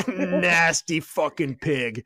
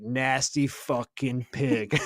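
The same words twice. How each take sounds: First: Slow, drawn-out disgusted sneer; mock disgusted drill instructor. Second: Slow, drawn-out disgusted growl; a drill instructor sneering at a recruit, slow and disgusted; mock disgusted drill instructor. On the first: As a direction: drag each word out in disgust. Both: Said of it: "And he's like".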